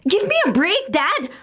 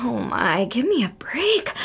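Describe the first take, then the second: First: Exasperated outburst. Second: Slow, breathy whisper to herself; whispered aside. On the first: Daughter fed up with her strict father, exasperated. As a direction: throw "Give me a break" at him in frustration. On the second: Daughter muttering about her father, whispered. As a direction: whisper "give me a break" under your breath, slowly. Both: Acted.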